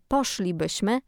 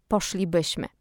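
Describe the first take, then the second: First: Poszlibyśmy stressed on the first syllable: POSZ-li-byś-my; stress on fourth-last syllable. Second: Poszlibyśmy wrongly stressed on the second-last syllable: posz-li-BYŚ-my; misplaced word stress. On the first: Host showing listeners correct Polish accent, poszlibyśmy stressed on POSZ. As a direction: hit POSZ at the start of poszlibyśmy. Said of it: "na sylabę czwartą od końca". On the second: Host showing listeners the faulty version, poszlibyśmy stressed on BYŚ. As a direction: move the stress late, onto BYŚ in poszlibyśmy. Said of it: "a nie".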